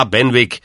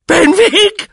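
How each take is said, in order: First: Said in the usual way. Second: Piercing, high cry as if stabbed; very high, loud shriek of a question. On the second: A narrator's reading. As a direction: scream it in wounded disbelief. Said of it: "schrie der Onkel, als habe man ihm einen Dolchstoß versetzt".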